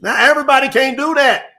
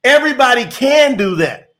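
First: Everybody said with a falling tune; Now, everybody can't do that with the stress on everybody; stated before taking it back; first claim. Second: Everybody can do that with can hit firmly; the correction, leaning on can; corrected claim. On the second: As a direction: stress on can. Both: Shown as a demonstration. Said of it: "No, I'm gonna take it back".

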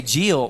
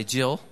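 First: Jill said as a Southern "Jee-ul"; Alabama pronunciation. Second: Said in the usual way. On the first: Shown as a demonstration. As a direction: draw the vowel of Jill out to "ee-ul". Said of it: "We say Jill". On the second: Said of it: "I've tried to fix that".

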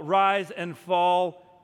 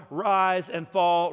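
First: "rise and fall" sung out slowly and loud. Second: Said in the usual way. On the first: Shown as a demonstration. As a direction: let "rise and fall" turn into a slow chant. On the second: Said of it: "rise and fall, sing".

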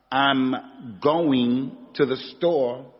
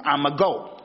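First: Said in the usual way. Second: "I'ma go" run together, words eaten up. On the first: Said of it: "instead of saying". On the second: Shown as a demonstration. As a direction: slur "I'ma go" into one quick chunk. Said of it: "I say".

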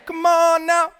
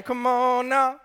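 First: Very high, very loud holler; all-out, high-pitched preacher's yell; full-force rousing shout. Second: Loud, high preacher's call; revved-up shout from the pulpit; rousing call. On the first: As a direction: shout it to the rafters at the congregation. Repeats the call, further raised. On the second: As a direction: rouse the congregation with a raised shout. Rousing the congregation after amen. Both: Real, not acted.

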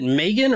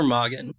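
First: Megan with a long A, MAY-gun; first-syllable long A. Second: Mogan with an open AH, MAH-gun; open first vowel. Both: Shown as a demonstration. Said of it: "Is it Megan or Mogan".

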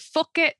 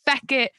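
First: High "fuck", with an uh vowel; higher-pitched "fuck it" to show the misheard word; mistaken word. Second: "feck" with an eh vowel; higher-pitched "feck it", clarifying the eh sound; Irish slang word. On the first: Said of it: "a different word that sounds like that". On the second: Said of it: "Oh no, it's like". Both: Shown as a demonstration.

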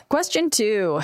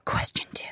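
First: Said in the usual way. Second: Whispered title. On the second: Acted. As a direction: breathe it without voice.

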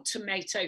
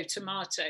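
First: Tomato said as tomayto, with the long ay; Tomato with the American tuh-MAY-toe vowel. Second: Tomato said as tomahto, with the broad ah; Tomato with the British tuh-MAH-toe vowel. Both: Shown as a demonstration. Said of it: "It's a bit like that song".

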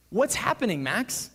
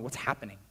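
First: Raised, louder, insistent question; acted-out rising alarm; alarmed demand. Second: Said in the usual way. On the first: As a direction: press Max urgently for an answer. Demands answer as students keep him out.

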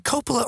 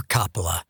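First: Coppola with a long O, COPE-uh-luh; Coppola, first vowel as in "go". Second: Coppola with a short open O, COP-uh-luh; Coppola, first vowel as in "hot". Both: Shown as a demonstration. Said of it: "is it Coppola or Coppola?".

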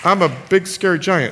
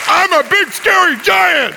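First: Subdued pretend giant, no boom left; deflated giant. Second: Big scary giant. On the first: Giant after two defeats by Caleb, deflated threat. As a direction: say it as a beaten giant. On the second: Pretend. Giant challenging Caleb once more, booming mock threat. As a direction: roar it as a pretend giant. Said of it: "I'm gonna be the big, scary giants".

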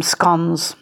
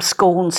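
First: "scones" with a short O, rhyming with dons; British short-O scones. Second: "scones" with a long O, rhyming with cones; local long-O scones. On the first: Giving Britain's usual word, "scones" with a short O. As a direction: say "scones" as "skonz". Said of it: "they often call them scones". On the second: Giving the local word, "scones" with a long O. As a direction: say "scones" as "skohnz". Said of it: "We call them scones here". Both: Shown as a demonstration.

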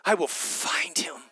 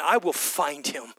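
First: Whispered vow, no voice. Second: Said in the usual way. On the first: Acted. Mary vowing to find Jesus, whispered. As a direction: breathe it as a secret promise. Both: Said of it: "repeated as whisper".

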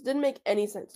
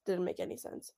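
First: Said in the usual way. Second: "Didn't make any sense" breathed out in a soft whisper; soft whispered echo of the complaint; whispered repeat. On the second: Real, not acted. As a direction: mutter it under your breath as a whisper.

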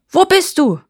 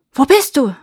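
First: High, loud demanding shout; sharply raised, shouted question; officer's shout. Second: Loud, raised searching call; louder, higher shouted question; shepherds calling out. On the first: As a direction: yell it as an angry search. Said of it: "schreit der Offizier". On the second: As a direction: call out to someone hidden. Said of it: "riefen die Hirten". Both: A narrator's reading.

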